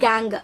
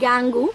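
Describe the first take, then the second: First: The word ends on a consonant sound. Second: The word ends with an added vowel sound. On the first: The speaker calls it right. "The right pronunciation is கேங்" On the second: The speaker calls it wrong. "It's not கேங்கு"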